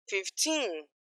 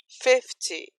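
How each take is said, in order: First: Put-on fifteen with the final TEEN drawn out; "fifteen", long stressed ending. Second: Fifty with a strong FIF, weak TY; "fifty", strong start fading off; stress on FIF. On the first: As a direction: lean on the second syllable of "fifteen". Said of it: "tem força pra ir até o final". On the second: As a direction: lean on the first syllable of "fifty". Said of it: "a energia acaba no começo". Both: Shown as a demonstration.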